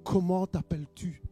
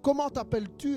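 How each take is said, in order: First: The question is asked at normal loudness. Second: The question is asked much louder.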